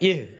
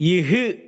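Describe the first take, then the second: First: The h sound ends with no following vowel. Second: A short u vowel follows the h sound. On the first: The speaker calls it right. "சுக்கூன கரெக்ட்டா இஹ் அசைச்சிராம" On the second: The speaker calls it wrong. "அந்த ஹால உள்ள சுக்கூன் மாறி தம்மா வந்து இஹு அப்படின்னு மாறிடும்"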